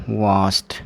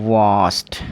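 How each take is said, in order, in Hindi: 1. यह शब्द "t" ध्वनि से खत्म होता है। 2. यह शब्द "t" ध्वनि से खत्म होता है।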